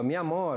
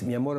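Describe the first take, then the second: First: It is said in an exasperated, reproachful tone. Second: It is said in a warm, ordinary tone. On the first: The same problem has happened yet again. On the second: A plain, loving request.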